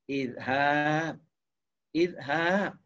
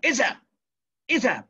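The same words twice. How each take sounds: First: "izhab" drawn out slowly on a low, level tone; gentle command. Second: "Izhab" as a curt order, high with a steep fall; short, sharp command on "Izhab"; firm command intonation. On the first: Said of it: "cara lembut atau cara keras". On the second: Teacher showing Arabic orders work the same, firm commanding "Izhab". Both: Shown as a demonstration.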